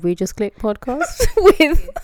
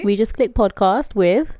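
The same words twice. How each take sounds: First: Laughing podcast intro. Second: Podcast intro. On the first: Intro retake, laughing through it. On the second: Podcast intro, name read slowly. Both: Acted.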